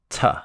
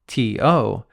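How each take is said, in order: First: The word is said with no vowel. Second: The word is said with a full vowel. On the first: "as t" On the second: "you can pronounce to"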